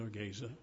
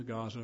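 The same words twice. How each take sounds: First: Long AY in the first syllable of "Gaza"; alternative pronunciation of Gaza. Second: "Gaza" said GAH-zuh; modern pronunciation of Gaza. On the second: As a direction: open AH in the first syllable of "Gaza". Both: Shown as a demonstration. Gives two pronunciations of Gaza.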